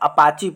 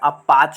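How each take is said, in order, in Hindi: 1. शब्द 'ee' स्वर पर खत्म होता है। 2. शब्द व्यंजन पर खत्म होता है। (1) "इसको सब हम लोग अपाची पढ़ते हैं, लेकिन इसको अपाची नहीं पढ़ा जाता है" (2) "अपाच बोलते हैं"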